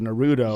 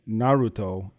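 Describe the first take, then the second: First: The t is softened into a d-like sound. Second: The t is pronounced as a clear t. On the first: The speaker sounds like a rural Midwesterner. "sound like an inbred Midwest hillbilly" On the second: The speaker sounds pretentious. "I sound like an asshole"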